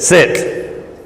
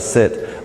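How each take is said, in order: First: The command is said loudly and sharply. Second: The command is said calmly, without raised voice. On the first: The dog is being reprimanded. The speaker calls it wrong. "the old instructive reprimand" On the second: The dog is simply given an instruction. The speaker calls it right. "you don't have to even raise your voice"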